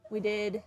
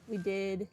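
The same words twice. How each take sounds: The two takes are said the same way.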